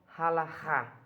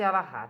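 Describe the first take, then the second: First: The word starts with a harsh throat sound. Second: The word starts directly with a vowel. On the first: "É o certo" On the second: "Pode ser Alahá"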